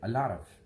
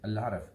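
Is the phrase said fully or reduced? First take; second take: reduced; reduced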